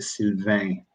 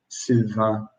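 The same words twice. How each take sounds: First: It is said with a Canadian French accent. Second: It is said with a European French accent. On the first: "French Canadian is more like" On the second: "If I went to France, they would pronounce it more like"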